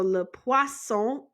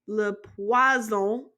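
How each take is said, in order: First: "le poisson" as luh pwah-SSOH; slow "poisson" with a crisp s in the middle; clear S sound. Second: "Le poison" as luh pwah-ZOH; French "poison" with a voiced, buzzing z; Z sound. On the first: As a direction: keep the s of "poisson" sharp, never a z. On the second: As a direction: make the middle of "poison" a z, not an s. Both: Shown as a demonstration. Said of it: "Make sure you have the s sound".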